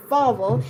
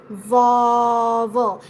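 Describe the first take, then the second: First: Said in the usual way. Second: "vowel" drawn out very slowly, first sound held long; exaggerated VOWEL. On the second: Shown as a demonstration. Teacher showing learners a slow speed, exaggerated "vowel". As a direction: stretch out every sound of "vowel". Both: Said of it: "just exaggerate more and more".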